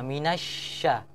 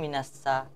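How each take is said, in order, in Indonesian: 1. Konsonan di tengah itu bunyi 'sh' yang melebar. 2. Konsonan di tengah itu bunyi 's' biasa. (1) "huruf shin itu harus ada uh, menyebar, angin yang menyebar di dalam" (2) "orang orang jarang kalau kadang minasa"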